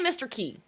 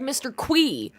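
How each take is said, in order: First: The name is said with a plain 'k' sound, 'key'. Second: The name is said with a 'kw' sound, 'kwee'. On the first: This is how the speaker says it. The speaker calls it right. "I say Mister Key" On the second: This is how the game's creator says it. The speaker calls it wrong. "he pronounces it like Mister Quee"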